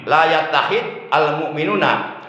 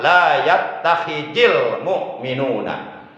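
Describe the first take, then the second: First: Yattakhid ends in a bare consonant with no vowel. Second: Yattakhid ends with an i vowel joining the next word. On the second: "kalau diwasol boleh dibaca"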